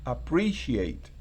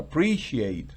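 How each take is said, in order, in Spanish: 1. El acento cae dos sílabas antes de 'ate'. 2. El acento cae dos sílabas antes de 'ate'.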